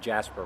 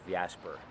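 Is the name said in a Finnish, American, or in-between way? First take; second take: American; in-between. First: The name is said with an American pronunciation. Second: The name mixes Finnish and American pronunciations. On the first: This is how Americans say it. "Americans usually tend to go the Jasper route" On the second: This is a compromise between the two. "a compromise be- between Jasper and, and my real name"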